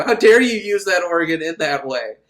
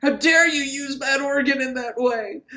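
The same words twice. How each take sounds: First: Louder, only slightly raised reprimand; mock church scolding. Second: High-pitched scandalized cry; mock priestly outrage. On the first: Repeated as church saying, second take. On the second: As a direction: scold in a high, hammed-up voice. Priest's outrage, first take.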